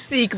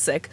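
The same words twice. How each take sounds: First: The vowel is long, like in 'seek'. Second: The vowel is short, like in 'sick'. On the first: This is how most people say it. The speaker calls it wrong. "more commonly pronounced Sikh" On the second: This is how the community itself says it. The speaker calls it right. "the correct pronunciation is Sikh"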